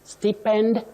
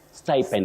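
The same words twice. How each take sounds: First: The first vowel is a plain short vowel. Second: The first vowel glides like in 'sty'. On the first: The speaker calls it wrong. "not sti. Stipend, no" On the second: The speaker calls it right. "with that vowel glide"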